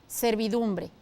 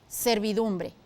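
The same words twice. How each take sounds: No difference in how they are said.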